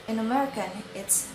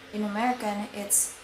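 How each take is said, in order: Both takes have the same delivery.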